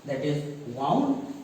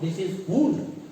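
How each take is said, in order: First: The vowel sounds like the one in cow. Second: The vowel sounds like the one in moon. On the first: It is the past form of wind. "This is the second form of wind" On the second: It means an injury. "It is wound in the sense of some injury"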